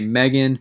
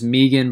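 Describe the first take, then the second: First: The name is said with an American pronunciation. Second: The name is said with an Australian pronunciation. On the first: "I'm American, so I'm going to say Megan" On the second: "the Australian pronunciation is Megan"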